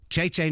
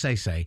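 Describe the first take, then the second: First: The name begins with a ch sound. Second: The name begins with an s sound. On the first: The speaker calls it right. "I want to do the proper Argentine Italian pronunciation" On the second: The speaker calls it wrong. "not Say-Say"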